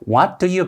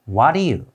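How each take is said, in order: First: Each word is said fully and separately. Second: The words run together with a softened t. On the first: The speaker calls it wrong. "what do you가 아니라" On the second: The speaker calls it right. "이렇게 발음이 됩니다"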